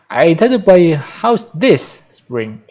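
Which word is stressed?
this spring. The stress is on the words this spring.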